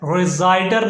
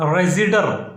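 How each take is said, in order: First: The second syllable has an 'eye' vowel. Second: The second syllable has a short 'ih' vowel. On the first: The speaker calls it wrong. "रिजाइडर नहीं" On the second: The speaker calls it right. "रेजिडर इसे पढ़ना है"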